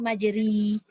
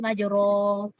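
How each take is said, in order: First: The vowel after r is a close i. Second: The vowel after r is an open a. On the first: "kalau bawah majri" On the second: "Kalau atas majro"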